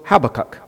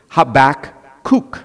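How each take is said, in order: First: The first k sound is silent. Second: It follows a Hebrew-style pronunciation. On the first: The speaker is influenced by American English. "If you're influenced by American English, the first K is silent" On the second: The speaker is influenced by Hebrew. "If you're influenced, however, by Hebrew, it will be Habakkuk"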